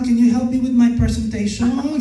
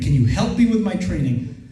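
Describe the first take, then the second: First: It sounds like a little kid talking. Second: It sounds like a confident adult talking.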